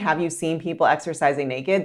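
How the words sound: The question sounds accusing and suspicious. The listener feels interrogated. The speaker calls it wrong. "That sounds more like an interrogation"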